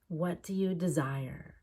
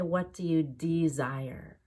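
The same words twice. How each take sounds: First: The first syllable of desire is quick and reduced. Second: The first syllable of desire is clear and careful. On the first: The speaker calls it right. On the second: The speaker calls it wrong.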